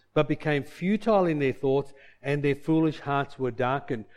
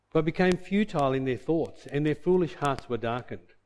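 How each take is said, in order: Both takes have the same delivery.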